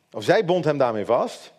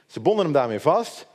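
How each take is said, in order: First: "zij" stressed as a correction. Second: Said in the usual way. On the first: Real, not acted. Preacher corrects who tied him up, stress on "zij". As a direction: put the weight on "zij", contrasting who did it.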